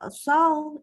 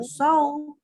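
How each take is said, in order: First: The syllable is said with open, unrounded lips. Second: The syllable is said with rounded lips. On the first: The speaker calls it right. "tapi so, ya, pakai short" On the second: The speaker calls it wrong. "Bibirnya nggak boleh membulat, bukan so"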